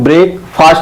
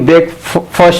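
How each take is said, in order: First: The word is split into 'break' and 'fast'. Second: The word is said as one unit, 'brekfast'. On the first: The speaker calls it wrong. "Wrong ब्रेकफास्ट को ब्रेक फास्ट बोलना, ये wrong है" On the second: The speaker calls it right. "बल्कि ब्रेकफास्ट बोला जाता है"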